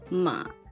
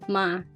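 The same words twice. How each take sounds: First: The word is said on a low, gloomy pitch. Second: The word is said on a level middle pitch. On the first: "low tone มา I call this depression tone" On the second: "middle tone"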